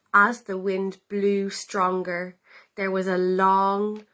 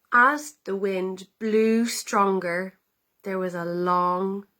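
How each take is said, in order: Both takes have the same delivery.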